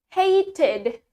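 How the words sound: The t is pronounced as a clear t. "in British, ... pakai T"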